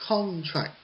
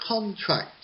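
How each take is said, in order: No difference in how they are said.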